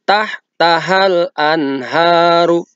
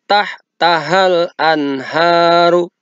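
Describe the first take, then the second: The two takes are said the same way.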